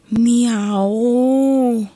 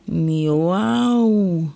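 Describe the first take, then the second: First: A loud, drawn-out, high meow; loud cat meow. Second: A milder, shorter meow. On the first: Cat in the dark cellar meowing loudly at the children. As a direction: yowl like a startled cat in the dark. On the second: Cat sitting before the children meowing more gently. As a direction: meow calmly, the cat now friendly. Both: A narrator's reading.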